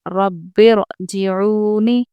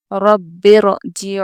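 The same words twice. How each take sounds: First: Very slow रब्बिरजिऊनी with a full, heavy र; heavy ra recitation. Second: Slow, loud, drawn-out recitation of रब्बिरजिऊनी; Quranic recitation. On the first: Teacher demonstrating the full र to students, very slow. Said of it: "रॉ को पुर पढ़ेंगे". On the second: Teacher reciting the example word to students, slow and drawn out. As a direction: recite रब्बिरजिऊनी slowly with a heavy र. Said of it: "देखिए". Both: Shown as a demonstration.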